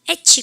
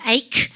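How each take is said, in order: First: The word ends with a ch sound. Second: The word ends with a k sound. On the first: The speaker calls it wrong. "에치 하면 혼납니다" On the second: The speaker calls it right. "이게 크 발음이고요"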